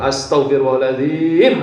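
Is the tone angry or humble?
angry. It is said in an annoyed, scolding tone. The speaker is venting frustration at someone. The speaker calls it wrong. "Ini kan bacaannya benar tapi cara membacanya salah"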